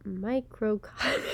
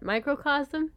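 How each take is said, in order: First: Microcosm cut off as "micro-kah"; stumbling over microcosm, unsure; mispronounced word. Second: Microcosm said in full as MY-kro-kaz-um with a questioning rise; trying out microcosm properly; checking pronunciation. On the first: Reader stumbles on microcosm while recording. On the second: Host checks with co-host how to say microcosm. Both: Real, not acted. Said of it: "I didn't know how to pronounce that".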